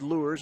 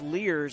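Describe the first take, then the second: First: The name rhymes with cures. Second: The name rhymes with ears. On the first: The speaker calls it wrong. "I would have said Lures and screwed that up" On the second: The speaker calls it right. "but pronounced Lears, I've been told"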